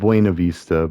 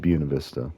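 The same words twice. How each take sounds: First: The name is said the common outsider way. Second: The name is said the local residents' way. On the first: This is how people from elsewhere say it. "I know people say it Buena Vista" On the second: This is how people who live there say it. "the locals say it Buena Vista"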